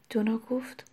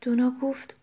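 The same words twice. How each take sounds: First: Dropped to a whisper; دونا گفت whispered softly; whispered tag. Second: Said in the usual way. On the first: A narrator's reading. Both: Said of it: "narration tag".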